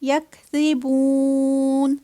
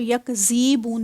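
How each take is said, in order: First: The middle consonant is pronounced softly. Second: The middle consonant is a hard z sound. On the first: The speaker calls it right. "इसको नरमी से अदा करना है।" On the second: The speaker calls it wrong. "इसको यकज़ीबून नहीं करना। ये जी वाली जो आवाज़ है ना, ज़ वाली, वो नहीं आएगी।"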